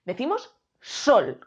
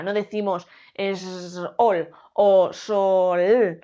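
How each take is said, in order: First: "sol" in one quick push of voice; one syllable, slowed for pupils; single beat. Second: Sol split in two as "es ol", slowly; broken into two beats, deliberately wrong. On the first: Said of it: "con un solo golpe de voz". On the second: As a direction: drag "es ol" apart, slow and wrong. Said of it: "Decimos sol, con un solo golpe de voz". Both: Shown as a demonstration.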